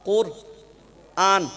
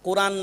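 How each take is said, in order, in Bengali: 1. শব্দটি দুটো আলাদা ভাগে ভাগ করে বলা হয়েছে। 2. শব্দটি একসাথে, মাঝে কোনো বিরতি ছাড়া বলা হয়েছে। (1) "কোরআন বলবেন না আজ থেকে" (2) "কোরআন না"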